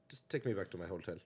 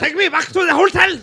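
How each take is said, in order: First: Low, soft, slightly German director; a weak attempt at a German accent, muted; faint German accent. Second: High, shouted mock German; exaggerated German accent. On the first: German director to the actor pitching him, faint German accent. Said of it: "That's your German accent?". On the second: German director demanding his hotel, high shouted German accent. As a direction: bellow it as a hammed-up German. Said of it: "That sounds more German".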